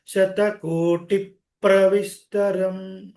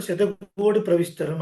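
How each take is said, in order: First: శతకోటి ప్రవిస్తరం chanted with a held "tip" before "pra"; stressed "tip-pra". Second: శతకోటి ప్రవిస్తరం quick, with a light single "pra"; unstressed, wrongly. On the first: Shown as a demonstration. Teacher correcting, stressing the doubled p in శతకోటి ప్రవిస్తరం. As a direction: close శతకోటి on a p and hit ప్రవిస్తరం. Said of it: "దాన్ని stress చేయాలి". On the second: Retold or imitated. Teacher quoting how some say it, శతకోటి ప్రవిస్తరం plain and unstressed. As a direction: run శతకోటి straight into ప్రవిస్తరం without stress. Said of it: "కొంతమంది".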